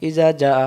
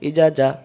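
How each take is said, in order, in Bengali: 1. শেষ স্বরটি ছোট করে কেটে বলা হয়। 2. শেষ স্বরটি ছোট করে কেটে বলা হয়।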